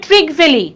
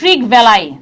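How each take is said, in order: First: The name ends with an 'ee' sound. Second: The name ends with an 'eye' sound.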